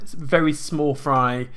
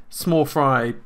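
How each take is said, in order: First: Very slow, each word drawn out; slow emphasis. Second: Said in the usual way. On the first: Real, not acted. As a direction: stretch out "very small fry" slowly to stress it.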